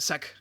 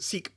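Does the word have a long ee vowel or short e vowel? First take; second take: short e; long ee. First: The vowel is a short e sound. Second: The vowel is a long ee sound. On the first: The speaker calls it wrong. "I've always pronounced it sec inside my head" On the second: The speaker calls it right. "I think you're supposed to pronounce it seek"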